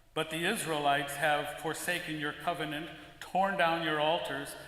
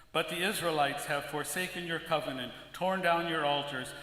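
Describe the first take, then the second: Both takes have the same delivery.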